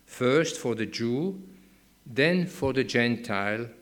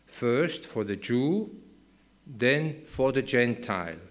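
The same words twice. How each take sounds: The two takes are said the same way.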